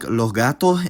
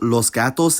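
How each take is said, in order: First: Each final s becomes a breathy h sound. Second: Each final s is a clear hissing s. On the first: "pronounced more like" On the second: "I'll use los gatos"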